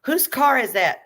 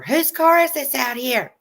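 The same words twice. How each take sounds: First: High, loud mimic of the nosy question; mocking nosy landlady. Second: High, slow, demanding neighbor voice; landlady demanding to know whose car it is, high and nosy; shrill nosy landlady. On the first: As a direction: parrot her demand in a high voice. Echoing the landlady's demand. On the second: Retold or imitated. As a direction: pitch it up and grill them about the car. Confronting landlady at door.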